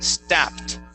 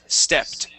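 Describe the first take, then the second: First: The vowel sounds like a short a. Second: The vowel sounds like a short e. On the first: The speaker calls it wrong. "you had said sta, stapped" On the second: The speaker calls it right. "It is a short E sound"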